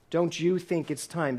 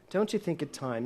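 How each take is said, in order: First: Slow, with you leaned on hard; stress on you. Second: Said in the usual way. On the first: Shown as a demonstration. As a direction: hit the word you and take it slowly. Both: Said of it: "the operative word here is you".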